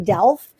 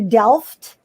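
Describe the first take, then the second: First: The final T sound is left silent. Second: The final T sound is clearly pronounced. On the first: The speaker calls it wrong. "in English we think the T is silent" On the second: The speaker calls it right. "that is the correct pronunciation"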